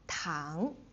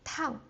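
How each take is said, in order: First: The pitch rises from middle to high. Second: The pitch falls quickly from high to low. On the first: "the second tone is like going from your neutral tone, neutral pitch to the highest. So going up" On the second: "the fourth tone, like the bungee jump, like going down really quick"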